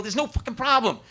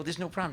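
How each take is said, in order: First: "no" hit hard and higher, with "fucking problem" added; emphatic denial. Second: Said in the usual way. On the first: Retold or imitated. Husband cutting off his wife's worry, stress on "no". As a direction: punch the word "no" in exasperation. Arguing with wife about son.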